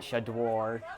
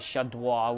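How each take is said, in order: First: The name is said with an American pronunciation. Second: The name is said with a French pronunciation. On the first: "if you want to keep it more and Americanize it" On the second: "which is the French"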